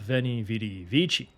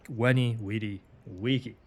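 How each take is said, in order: First: The words start with v, and c is soft. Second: The words start with w, and c is k. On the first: The speaker calls it wrong. "Not veni, vidi, vici" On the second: The speaker calls it right. "the C was pronounced like a K"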